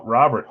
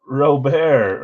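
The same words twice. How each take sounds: First: Robert said as "RAH-bert"; English-style pronunciation. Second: Robert said as "roh-BAIR"; French-style pronunciation. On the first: Host correcting himself on the name, Robert pronounced "RAH-bert". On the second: Host trying the player's name, Robert pronounced "roh-BAIR". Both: Real, not acted. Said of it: "think you say Robert".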